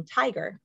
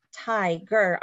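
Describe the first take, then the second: First: Said in the usual way. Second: "tiger" in two separate beats, "ti" then "ger"; split into syllables. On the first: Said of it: "I think of the word". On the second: Shown as a demonstration. Teacher splitting after the open syllable, "tiger" as ti, ger. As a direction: say "tiger" broken after the long i. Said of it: "I'm splitting the syllable at the end".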